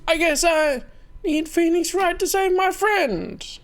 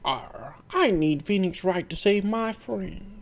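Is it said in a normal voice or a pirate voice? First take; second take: normal voice; pirate voice. First: It is said in a normal voice. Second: It is said in a put-on pirate voice.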